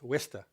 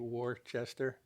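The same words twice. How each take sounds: First: The name is said in a shortened local form. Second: The name is said fully, following its spelling. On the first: This is how locals actually say it. The speaker calls it right. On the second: This is how a reader would guess it from the spelling. The speaker calls it wrong. "you would think it would be"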